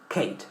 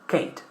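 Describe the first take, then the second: The two takes are said the same way.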